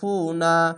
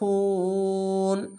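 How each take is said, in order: First: The word ends with a vowel after n. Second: The word ends on a bare n sound. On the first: The reader carries on without stopping. "যদি না থামেন তাহলে ফু না বলতে হবে" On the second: The reader stops at this point. "যদি এখানে থামেন তাহলে ফুন"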